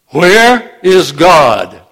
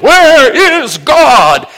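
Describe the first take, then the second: First: It is said in a raised, louder voice. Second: It is shouted at full volume.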